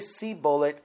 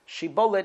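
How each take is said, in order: First: The word begins with an s sound. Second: The word begins with an sh sound. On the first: The speaker is from the tribe of Ephraim. The speaker calls it wrong. "they had a lisp. They couldn't say the word shibolet. They would say sibolet" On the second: The speaker is not from the tribe of Ephraim. The speaker calls it right. "in Hebrew it's called shibolet"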